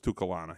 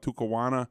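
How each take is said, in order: First: The middle consonant is an L sound. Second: The middle consonant is a W sound. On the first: The speaker calls it right. "but it's Tucalana" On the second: The speaker calls it wrong. "I always want to call it Tucawana"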